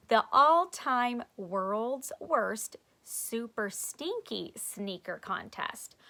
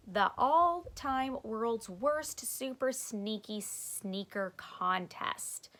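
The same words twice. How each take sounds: First: Slow, deliberate reread; corrected slow reading. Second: Slow, drawn-out reading aloud. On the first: Shown as a demonstration. Reader correcting her flyer reading, slow. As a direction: read it again carefully. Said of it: "Miss Full read that wrong". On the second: Acted. Stink reading the flyer aloud, slow. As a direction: sound out each word carefully.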